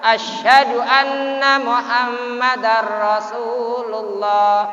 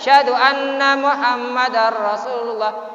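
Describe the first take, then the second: First: The first word begins with its opening 'a' sound. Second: The first word begins without its opening 'a' sound. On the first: The speaker calls it right. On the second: The speaker calls it wrong. "Tidak boleh ... Alifnya itu mana?"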